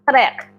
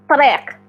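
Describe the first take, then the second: The two takes are said the same way.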